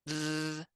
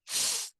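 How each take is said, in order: First: The th sound is voiced, with buzzing. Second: The th sound is unvoiced, only breath. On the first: "voiced th" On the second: "unvoiced th"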